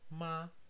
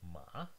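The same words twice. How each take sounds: First: The pitch stays high and level. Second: The pitch stays level in the middle. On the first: "5 indicates the highest part of the pitch range" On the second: "3 is the middle"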